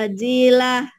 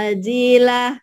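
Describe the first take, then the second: Both takes have the same delivery.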